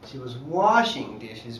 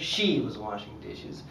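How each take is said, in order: First: The word 'washing' is stressed. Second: The word 'she' is stressed. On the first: That was the action that happened. "means that was the action that happened" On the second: It was the girl in particular who did it. "Clearly means that the girl in particular was washing dishes"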